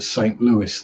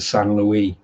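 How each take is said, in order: First: The name is said with English sounds. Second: The name is said with French sounds.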